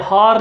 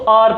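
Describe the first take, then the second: First: The word starts with an audible h sound. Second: The word starts with a vowel, no h sound. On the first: The speaker calls it wrong. "हार नहीं पढ़ते" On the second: The speaker calls it right. "हम इसको आर पढ़ते"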